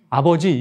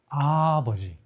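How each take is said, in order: First: The first syllable is short, like the others. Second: The first syllable is drawn out long. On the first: The speaker calls it wrong. "이게 아니고" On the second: The speaker calls it right. "이렇게 해야 좀 돌아가신 저도 우리 아버지가 갑자기 생각나"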